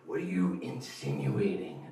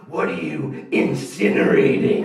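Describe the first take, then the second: First: Slow, deliberate mock squint; slow suspicious question. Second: Slow, louder, laughing misspeak; slow dumb misspeak. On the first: Friend questioning the bandmate, slow suspicious voice. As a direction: drag out each word suspiciously. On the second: Retold or imitated. Dumb guy mangling the word, slow and loud. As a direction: say the wrong word proudly. Wrong-word version of quote.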